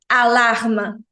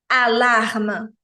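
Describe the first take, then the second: The two takes are said the same way.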